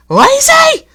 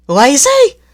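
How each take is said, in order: First: Very high, loud falling Lazy?; second, more indignant; outraged echo. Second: High, loud rising Lazy?; first indignant echo; offended question. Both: A narrator's reading. Coaches offended, repeating.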